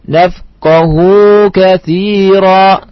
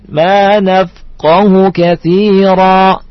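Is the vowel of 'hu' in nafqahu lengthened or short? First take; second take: lengthened; short. First: The vowel after the h is lengthened. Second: The vowel after the h is short. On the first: The speaker calls it wrong. "Tidak boleh kita baca" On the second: The speaker calls it right. "dibaca pendek"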